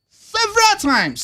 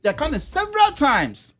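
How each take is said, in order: First: "Several times" said much higher, stressing "several"; emphatic repeat. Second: Said in the usual way. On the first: Real, not acted. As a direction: push "several" up high and stress it.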